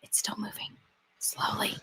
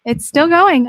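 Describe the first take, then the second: First: Hushed whisper, almost no voice. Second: Higher and louder, fed up; loud exasperated. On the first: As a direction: breathe the words as a secret. Watching slow elevator, hushed. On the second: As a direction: call it out in disbelief. Watching slow elevator, exasperated. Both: Real, not acted.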